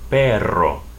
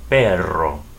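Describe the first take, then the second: First: The middle r is a long rolled trill. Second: The same.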